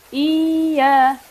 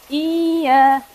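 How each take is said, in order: Both takes have the same delivery.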